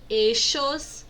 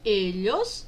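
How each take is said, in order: First: The word is said in a different regional pronunciation. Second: The word is said in its first, usual pronunciation. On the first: "Também vocês podem ouvir eixos" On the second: "que são ellos e ellas"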